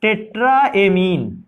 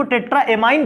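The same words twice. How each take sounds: First: टेट्राएमीन ending in a long "een"; amine as "ameen". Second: टेट्राएमाइन ending like "mine"; amine as "amine". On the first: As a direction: say टेट्राएमीन slowly, last syllable "meen". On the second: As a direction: say टेट्राएमाइन with an "eye" vowel in the last syllable. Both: Shown as a demonstration. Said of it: "कुछ लोग इसको टेट्राएमाइन भी कहते हैं".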